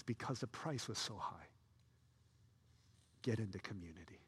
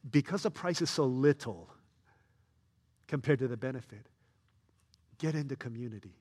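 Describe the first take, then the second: First: Much softer, earnest correction; hushed right version; the true reading. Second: Emphatic mistaken take; the wrong reading. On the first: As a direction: drop low and sincere for the real message. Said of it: "He says". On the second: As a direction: push it like a misreading. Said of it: "the author of Hebrews is not saying". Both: Shown as a demonstration.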